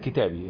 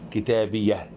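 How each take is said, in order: First: The word ends on the vowel, without h. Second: The word ends with a soft h sound. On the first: "بدل ما تقف عليها كتابي" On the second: "فتقول كتابية كتابية"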